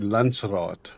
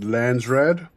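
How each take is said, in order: First: The word is said with its original pronunciation. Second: The word is said with an anglicized pronunciation. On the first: This follows the word's source language. The speaker calls it right. "the correct pronunciation would be Landsraad" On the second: This is how the game says it. The speaker calls it wrong. "the way they pronounce it"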